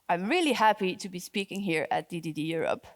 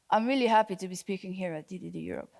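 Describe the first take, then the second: First: The voice sounds genuinely happy and matches the words. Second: The voice sounds unhappy, clashing with the words.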